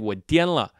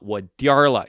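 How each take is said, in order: First: The middle syllable has no added R sound. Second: The middle syllable ends with an added R sound. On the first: The speaker is crazy. "If you just say 我颠了, 颠 means crazy" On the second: The speaker is leaving. "You got to add that R"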